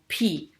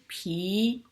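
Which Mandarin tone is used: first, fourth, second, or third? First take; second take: fourth; second. First: The syllable is said with a sharply falling pitch. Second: The syllable is said with a rising pitch.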